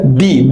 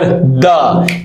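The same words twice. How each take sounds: First: The word ends in a long 'ee' vowel. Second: The word ends in a short 'uh' vowel. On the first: The next word begins with a vowel. "so we will pronounce it here the" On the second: The next word begins with a consonant. "so we will pronounce it here the"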